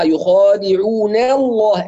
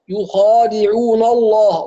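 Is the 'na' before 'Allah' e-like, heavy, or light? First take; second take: e-like; heavy. First: The n syllable's vowel leans toward an e sound. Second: The n syllable is thickened like the following l. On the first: "يعني تقليل أو إمالة للفتح" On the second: "نسمع معظم الناس لما يقرأ يقول يخادعون الله"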